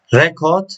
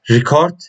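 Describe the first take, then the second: First: "Record" as a noun: REK-ord, stress on the first syllable; "Record" with a stressed REK and a light ord; noun pronunciation. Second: "record" as a verb: ri-CORD, stress on the second syllable; "record" with a short ri and a stressed CORD; verb pronunciation. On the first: Teacher giving the noun "Record". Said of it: "Record as a noun". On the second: Teacher giving the verb "record". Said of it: "record as an verb". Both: Shown as a demonstration.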